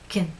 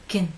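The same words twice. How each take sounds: First: The vowel is weak, lips fully relaxed. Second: The same.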